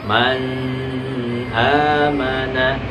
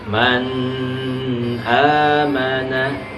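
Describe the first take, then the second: The two takes are said the same way.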